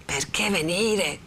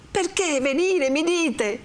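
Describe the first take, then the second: First: Subdued echo. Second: High, pained protest; indignant echo. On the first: Renzo echoes Lucia's question, slow and subdued. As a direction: repeat it slowly without raising the voice. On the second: Renzo reproaches Lucia for asking, high and indignant. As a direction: throw the question back in high indignation. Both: Acted.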